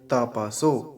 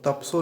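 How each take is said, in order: First: A short vowel follows the 'p' before 's'. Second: The 'p' joins the 's' with no vowel. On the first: The speaker calls it right. "तपसो ये ठीक है" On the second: The speaker calls it wrong. "तपसो नहीं बोलेंगे, ये गलत उच्चारण है"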